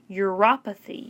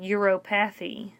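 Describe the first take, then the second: First: The word is said with its standard pronunciation. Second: The word is sounded out the way it is spelled. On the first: The speaker calls it right. "but it's pronounced uropathy" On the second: The speaker calls it wrong. "It looks like uropathy"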